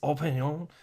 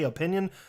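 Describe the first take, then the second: First: The word is stressed with a French-sounding emphasis. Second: The word is stressed in the ordinary English way. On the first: The speaker calls it right. "so it sounds all French and whatnot" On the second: The speaker calls it wrong. "I don't know why you're saying it all weird"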